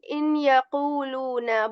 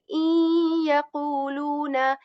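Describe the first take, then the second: First: The n is pronounced separately before the next word. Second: The n is dropped and merged into the next word. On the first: The speaker calls it wrong. "We're not saying in يَقُولُونَ" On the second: The speaker calls it right. "we are joining like إِن يَقُولُونَ, and the letter noon is uh, dropped here"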